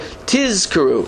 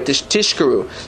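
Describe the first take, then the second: First: The middle consonant is a z sound. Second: The middle consonant is a sh sound. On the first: It means you shall remember. The speaker calls it right. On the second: It sounds like a word about lies. The speaker calls it wrong. "careful not to say it that way"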